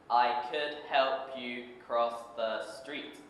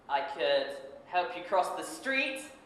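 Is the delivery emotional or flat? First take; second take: flat; emotional. First: It is read flatly, without emotion. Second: It is acted emotionally, in a childlike voice. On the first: The speaker calls it wrong. "This is the incorrect way. ... It is just like an adult reading a sentence" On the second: The speaker calls it right. "really become the boy with his voice, his facial expressions, and his emotions, like this"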